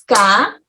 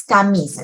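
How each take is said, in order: First: "Camisa" pulled apart as ca, mi, sa; separated syllables. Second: Said in the usual way. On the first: Shown as a demonstration. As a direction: pause after each syllable of "Camisa". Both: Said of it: "Entonces separamos".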